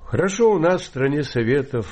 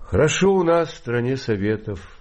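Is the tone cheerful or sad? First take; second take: cheerful; sad. First: It is said in a cheerful tone. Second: It is said in a sad tone.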